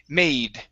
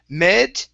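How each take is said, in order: First: The vowel is a long 'ay' sound. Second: The vowel is a short 'eh' sound. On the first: The speaker calls it right. "long A sound" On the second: The speaker calls it wrong. "instead of saying med"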